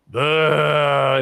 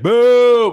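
First: The boo sounds tired and half-hearted. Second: The boo sounds friendly and greeting-like.

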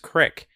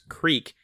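First: The vowel is a short i sound. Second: The vowel is a long ee sound. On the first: This is a local regional way of saying it. The speaker calls it wrong. "people will say Johnson's Crick" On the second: This is the name as it is spelled. The speaker calls it right. "it's called Johnson's Creek"

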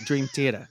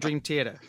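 First: It is said in a Long Island accent. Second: It is said in a neutral accent.

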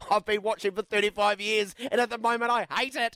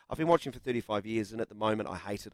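First: It is read with heightened emotion and high pitch. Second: It is read in a calm, serious, even tone. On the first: The reader voices the frustration felt while reading. "there's the emotions I felt while reading it" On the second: The text is presented plainly without added feeling. "I won't read it seriously"

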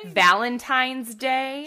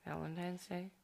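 First: The words are clearly and carefully articulated. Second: The words are mumbled and unclear. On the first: The speaker calls it right. "I know how to enunciate" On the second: The speaker calls it wrong. "I said that, like, just like, mumbling"

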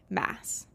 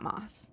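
First: The name has the vowel of 'mass'. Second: The name has the vowel of 'moss'. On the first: The speaker calls it right. "It is, in fact, Sarah J. Maas" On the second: The speaker calls it wrong. "not Moss. Even though I want to say Moss"

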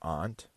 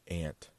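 First: The word does not sound like 'ant'. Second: The word sounds just like 'ant'. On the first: "like I say" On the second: "which is exactly like the little animal"

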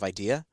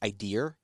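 First: No R sound is added at the end. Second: An R sound is added at the end. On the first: "instead of idea" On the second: "add I guess it's referred to, if I recall, as like a hanging R. So words like idea"

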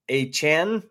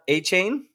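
First: The last syllable has a short 'ah' vowel. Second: The last syllable has a long 'ay' vowel. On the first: This is how he wants to be called. The speaker calls it right. "like to be called a Chan" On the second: This is not how he wants to be called. The speaker calls it wrong. "not a Chain"

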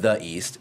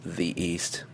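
First: The word 'the' is pronounced 'thuh'. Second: The word 'the' is pronounced 'thee'. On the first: The speaker calls it wrong. "it's not the East" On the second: The speaker calls it right. "it's the East"

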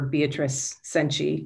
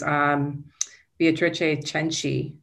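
First: The name is pronounced the American way. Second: The name is pronounced the Italian way.

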